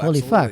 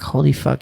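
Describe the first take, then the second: First: It sounds delighted and admiring. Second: It sounds disturbed and uneasy. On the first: The person is thrilled to have found this. "the exact same words, but in a different tone" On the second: The person is unsettled and wants to leave. "I'm scared right now"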